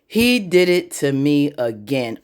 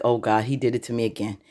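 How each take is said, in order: First: "He did it to me again" slowly, word by word; slow emphatic repeat. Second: Low, quick, soft aside; muttered dismay. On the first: Andy realizing the betrayal, slow emphatic dismay. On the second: Andy realizing he did it again, low dismayed mutter. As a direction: mutter it low under your breath. Retold dismayed reaction, first take. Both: Retold or imitated.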